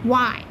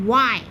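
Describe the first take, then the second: Both takes have the same delivery.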